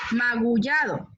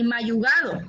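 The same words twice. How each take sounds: First: "magullado" with g before ll; careful "magullado", ma-gu-lla-do; correct magullado. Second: "mayugado" slowly, y before g; "mayugado" with swapped consonants; wrong magullado. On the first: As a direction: model "magullado" clearly. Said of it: "sino magullado". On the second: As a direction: show the faulty "mayugado". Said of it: "ni mayugado". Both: Shown as a demonstration.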